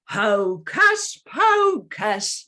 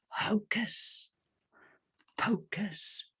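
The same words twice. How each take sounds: First: It is said in a loud voice. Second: It is said in a whisper.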